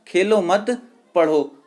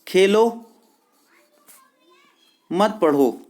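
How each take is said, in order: First: There is a pause after 'mat'. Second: There is a pause after 'khelo'.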